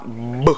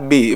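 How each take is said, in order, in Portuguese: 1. É dito como o som puro da consoante. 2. É dito como o nome completo da letra. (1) "é o som que sai" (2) "Aqui não vai falar B"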